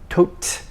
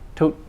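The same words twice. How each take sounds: First: The final T is released with a breath. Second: The final T is held without a breath. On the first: The speaker calls it wrong. "not tote" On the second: The speaker calls it right. "not released"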